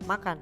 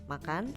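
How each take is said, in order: First: It is said with the tune of a command. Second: It is said with the tune of a question. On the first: It orders someone to do it. "kalau diberi tanda suruh, ... kalau dilisankan akan seperti" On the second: It asks something. "bila kata makan tadi diberi tanda tanya, tentunya kita semua tahu intonasinya akan berubah"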